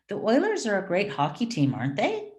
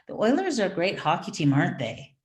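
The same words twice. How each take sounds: First: The voice rises at the end. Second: The voice falls at the end.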